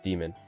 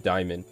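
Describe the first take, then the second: First: The first vowel sounds like 'ee'. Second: The first vowel sounds like 'eye'. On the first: "in English it's demon" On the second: "in Latin it would be diamond"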